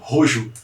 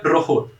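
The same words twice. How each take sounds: First: It is read with Brazilian Portuguese sound habits. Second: It is read with native Spanish sound habits. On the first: The speaker calls it wrong. "não rojo" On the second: The speaker calls it right. "se pronuncia rojo"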